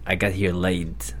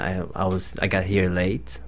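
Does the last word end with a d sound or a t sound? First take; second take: d sound; t sound. First: The last word ends with a d sound. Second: The last word ends with a clear t sound. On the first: It sounds like a remark about having sex. The speaker calls it wrong. "Like, I just got laid" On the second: The speaker arrived after the expected time. The speaker calls it right. "instead of saying I got here late"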